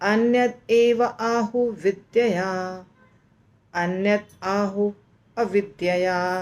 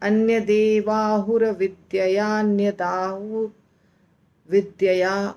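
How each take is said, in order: First: Each word is said separately, with breaks between. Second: The words run together, with sounds merged across them. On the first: "तो कैसे बोलना है ... ऐसे" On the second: "बहुत difficult है, तो हमको नहीं इस तरह बोलना है"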